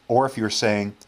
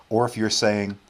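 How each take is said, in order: No difference in how they are said.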